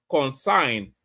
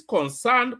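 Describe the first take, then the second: First: Concern said as Consign, rhyming with sign; mispronunciation imitated. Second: Concern said properly, with the -cern vowel; correct pronunciation. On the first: Commentator imitating protester's pronunciation of concern. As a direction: imitate the accent saying Consign. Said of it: "he cannot even pronounce the word concern". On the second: Shown as a demonstration. Commentator contrasting correct and wrong pronunciation. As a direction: say concern the standard way. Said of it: "pronounces concern".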